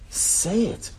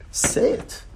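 First: Higher pitched, pressing insistence; high urging. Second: Whispered urging. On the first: Teacher urging students to speak, pitched higher. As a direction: lift it up, push them to speak. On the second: Teacher urging students to speak, in a whisper. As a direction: whisper it, coaxing. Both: Acted.

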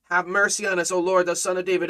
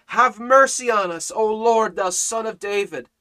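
First: Said in the usual way. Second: Louder, raised plea that falls away at the end; crying out louder. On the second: Retold or imitated. Blind beggars crying out to Jesus over the crowd, louder plea. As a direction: call it out over the crowd, begging. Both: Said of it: "But they cried the more".

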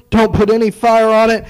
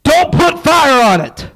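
First: Said in the usual way. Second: Commanding. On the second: Acted. God's command, quoted in a sermon.

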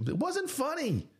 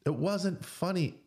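First: Much higher, pointed denial; high emphatic retort. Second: Slow, firm, still raised; slower insistent repeat. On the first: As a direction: snap it back high. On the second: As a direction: land it slowly, insisting. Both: Real, not acted. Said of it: "repeated with emphasis".

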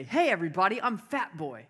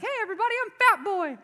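First: Lightly acted announcement, lifted on "Hey"; feed the line with a bit of showmanship; brother dictating a line. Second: Very high, loud put-on party entrance; gullible kid announcing himself. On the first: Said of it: "you're gonna say". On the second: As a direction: belt it out like an eager little boy. Acts his childhood entrance at party.

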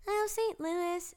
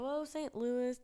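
First: Put-on high, drawn-out little kid voice; third grader voice. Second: Said in the usual way. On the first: Third grader answering where they're going, high kid voice. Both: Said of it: "freaking idiot third grader".

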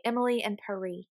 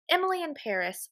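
First: Paris said pah-REE, dropping the final s; French pronunciation. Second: Paris said as PAIR-iss with a clear final s; American pronunciation. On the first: Friend mocking the title, Paris as pah-REE. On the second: Friend mocking the title, Paris with the s. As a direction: say "Paris" the plain American way, ending on a hiss of s. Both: Shown as a demonstration. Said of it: "most people more correctly say".

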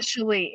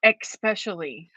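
First: "especially" with a plain s, ess-PESH-lee; correct pronunciation. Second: "especially" with an added k, ex-PESH-ally; wrong pronunciation. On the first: Co-host corrects host's word, "especially" said cleanly as ess-PESH-lee. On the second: Co-host mimics host's slip, "especially" mispronounced as ex-PESH-ally. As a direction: put an x into "especially": ek-SPESH-ally. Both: Shown as a demonstration. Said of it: "It's not especially".

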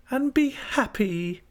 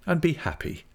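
First: Put-on very high, drawn-out girlish echo; Dora. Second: Said in the usual way. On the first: A narrator's reading. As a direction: echo him slowly in a high child-wife voice. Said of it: "returned Dora".

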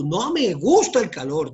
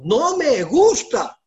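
First: Said in the usual way. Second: "gusta" alargado, alto y fuerte; énfasis en gusta. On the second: Real, not acted. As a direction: recalca "no me gusta" lento y agudo. Repite con fuerza y lentitud. ("gusta" arrastrado, más agudo y fuerte)

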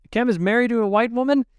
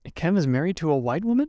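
First: Much higher, louder and quick, an accusing cry; shocked, accusing demand; accusing outburst. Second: Quick, mildly accusing question; half-asking, half-accusing, lightly voiced; mild disbelieving accusation. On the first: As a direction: fling the question at her like an accusation. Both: A narrator's reading. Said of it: "more of an accusation than a question".

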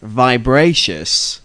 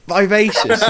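First: Vibracious, with a B sound and drawn out slowly; mispronounced vivacious. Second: Vivacious, said high with a clear V; corrected pronunciation. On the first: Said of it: "Where do you get this word vibracious from". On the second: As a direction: say Vivacious with a V, pitched up. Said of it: "That's the one". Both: Real, not acted.

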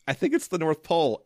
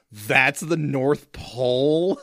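First: Said in the usual way. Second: Incredulous. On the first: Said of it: "so amazingly incredulously". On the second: Retold or imitated. Scott questioning Charlie about the North Pole, mock incredulous. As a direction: stretch out NORTH POLE in retold disbelief. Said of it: "so amazingly incredulously, he just screams".

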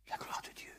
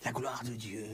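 First: La gloire de Dieu breathed as a whisper. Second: La gloire de Dieu said softly, voice dropped; soft echo. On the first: Preacher echoing Jesus' promise again in an awed whisper. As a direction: whisper it in awe. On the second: Preacher echoing Jesus' promise to his listeners, softly. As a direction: repeat it quietly, letting it sink in. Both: Shown as a demonstration. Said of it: "tu verras la gloire de Dieu".

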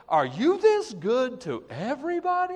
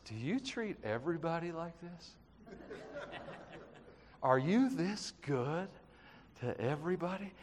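First: Higher, bright exclaiming wonder at his goodness; joyful wonder. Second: Awed hush. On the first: Shown as a demonstration. Preacher showing the congregation how to start their day, joyful wonder. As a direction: say it like a delighted morning greeting to God. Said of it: "Start your day going like this". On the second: Retold or imitated. David praying to God, stunned by his goodness, hushed awe. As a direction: marvel at it quietly, barely above a breath. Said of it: "he says".

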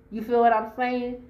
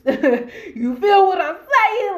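First: Said in the usual way. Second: High, loud, slow, laughing it out. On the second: Real, not acted. To viewers after her threat, laughing. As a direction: cracks up mid-question, much louder.

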